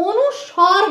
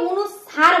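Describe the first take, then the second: First: অনুস্বর said slowly and carefully with the স্ব cluster; অনুস্বর demonstrated slowly as the correct form; correct pronunciation. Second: অনুসার said slowly as the mistake learners make, without the ব sound; অনুসার demonstrated slowly as the wrong form; common wrong pronunciation. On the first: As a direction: model the right form: অনুস্বর, clear sw. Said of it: "এটাকে আমরা কি বলে থাকি". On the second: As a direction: show the error: অনুসার, plain s with no w glide. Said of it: "কিন্তু অনুসারও নয়". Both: Shown as a demonstration.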